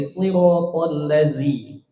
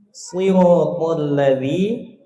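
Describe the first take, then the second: First: The middle consonant of ladzi is a plain z. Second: The middle consonant of ladzi is a th-like sound. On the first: The speaker calls it wrong. "Pakai zai. Sama, keliru juga" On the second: The speaker calls it right. "harusnya pakai dzal"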